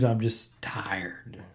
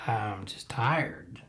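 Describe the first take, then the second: First: Slow, breathy whispered sigh of exhaustion; exhausted whisper. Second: Slow, much softer, voiced and sinking at the end; barely voiced, trailing off in fatigue; weary murmur. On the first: Host tells listeners he is tired of covid, whispering slowly. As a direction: let it drain out as a worn-out whisper. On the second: Host repeats to listeners he is worn out, in a slow soft murmur. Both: Real, not acted. Weary podcaster sighing about covid.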